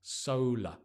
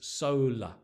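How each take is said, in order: No difference in how they are said.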